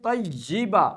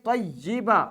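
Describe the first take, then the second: No difference in how they are said.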